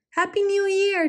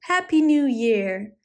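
First: Much higher squeaky echo; cried out. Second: Slow, louder greeting; cried out. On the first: Squirrels calling to their friend, high squeaky cheer. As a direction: squeak the greeting happily. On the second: Squirrels thanking their friend, slow loud cheer. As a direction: draw out the cheer. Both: A narrator's reading. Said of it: "they cried".

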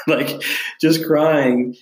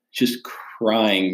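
First: "just crying" stretched very slowly; slow, emphatic retelling of his tears; drawn-out emphasis. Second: Said in the usual way. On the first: Real, not acted.

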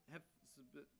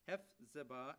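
First: Unsure, quiet try at "Hephzibah", softer and trailing; tentative first try. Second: "Hephzibah" said firmly and louder, HEF-zi-bah, ending on a rise; confident retry. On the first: Pastor reading Isaiah, unsure of the name, tentative. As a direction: sound out "Hephzibah" hesitantly after the false start. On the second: Pastor getting the name right on the second try, confident. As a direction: settle the name "Hephzibah" with assurance. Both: Real, not acted. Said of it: "but you shall be called Hez".

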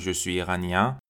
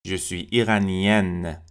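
First: "iranien" ending in a nasal vowel, no n; "iranien" as ee-ra-NYAN, final n silent; masculine nasal ending. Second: "iranienne" as ee-ra-NYEN, with a sounded n; drawn-out "iranienne" closing on a clear n; "iranienne" with open e and no nasal vowel; feminine non-nasal ending. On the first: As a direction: send the end of "iranien" through the nose. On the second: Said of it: "دیگه نزل نبود". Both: Shown as a demonstration.

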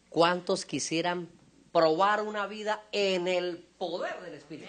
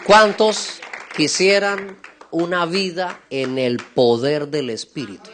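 First: Slow, measured asking, rising at the end; deliberate repeated question. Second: Loud, slow, drawn-out preacher's question; rallying call. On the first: Preacher checks the congregation understood the question, deliberate asking. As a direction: ask it slowly, word by word. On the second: Preacher asks the congregation who wants this life, rallying call. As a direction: ring it out slowly to the whole hall. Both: Real, not acted.

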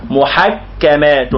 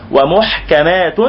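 First: محكمات slowly as muḥak-kamātun; doubled kaf. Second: ومحكمات slowly as wa-muḥ-kamātun; added waw, single kaf. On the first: Teacher showing the metre without waw, doubled kaf. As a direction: hold the kaf as two letters in محكمات. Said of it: "هذه الكاف المشددة حرفين". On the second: Teacher fixing the metre with a waw, single kaf. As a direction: add wa and leave ḥ vowelless in ومحكمات. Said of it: "لابد أن تضيف الواو". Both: Shown as a demonstration.

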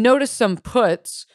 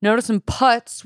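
First: "puts" with the vowel of "foot"; mispronounced putz. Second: "putts" with the vowel of "cut"; corrected putz. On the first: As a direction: say "puts" like the verb put. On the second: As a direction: say "putts" to rhyme with cuts. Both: Real, not acted. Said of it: "The word is putz".

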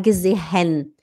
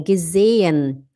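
First: "gesehen" as ge-ze-HEN, h pronounced; "gesehen" with a breathed h before -en; wrong sounded h. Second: "gesehen" as ge-ZEE-en, long e and no h; slow, lower "gesehen" gliding over a silent h. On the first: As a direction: put a clear h in "gesehen". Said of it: "Não fala gesehen". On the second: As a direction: stretch the middle e of "gesehen". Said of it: "ele serve pra prolongar o E". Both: Shown as a demonstration.

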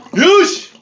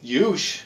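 First: Yush barked out high and loud; mock Russian shout. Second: Said in the usual way. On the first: Mocking a friend's toast as a Russian guy, loud. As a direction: shout the word like a brash tough guy. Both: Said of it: "Is that, like, some Russian guy you know?".

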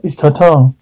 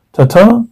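First: Tata said evenly with a falling end; correcting Tata. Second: Tata with a rising, higher tune; questioning Tata. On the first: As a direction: correct them with a settled "Tata". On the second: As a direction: ask "Tata" as an unsure question. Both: Acted. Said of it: "Nope, it's Tata".

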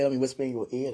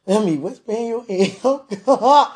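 First: Said in the usual way. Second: Higher, giddy teasing burst; giddy, flirty. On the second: Acted. Teasing the one she wants to whisper to, giddy and flirty. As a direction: let it rise playfully into laughter. Repeats the line, giddy and raised.

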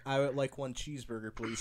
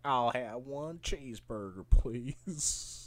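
First: Said in the usual way. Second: Imitated Alabama drawl, softer and lower; rural Alabama accent. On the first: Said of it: "say something simple like". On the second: Imitating a British dude ordering, rural Alabama accent. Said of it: "that's some fucking rural Alabama shit".

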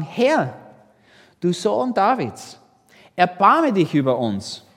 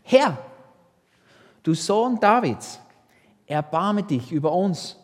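First: Louder, pleading call, building to the end; second plea, louder still; crying out even more. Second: Crying out for mercy. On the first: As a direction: shout over the crowd that hushes you. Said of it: "riefen nur noch mehr". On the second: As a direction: call out to him, begging. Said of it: "riefen sie und sprachen". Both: A narrator's reading.

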